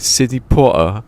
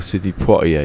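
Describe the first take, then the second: First: The surname is said like 'Potter'. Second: The surname is said as 'Pwah-tee-ay'. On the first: "Sidney Potter,like that" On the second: "no, it's Sidney Poitier"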